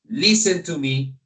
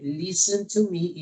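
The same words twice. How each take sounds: First: It is said in a strong, loud voice. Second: It is said in a calm, soft voice. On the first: The listener may feel frightened. "maybe you can be afraid for that one. Depends on my kind of voice" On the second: The speaker wants the listener to follow along. "is because I need that you are following me literally in my camera"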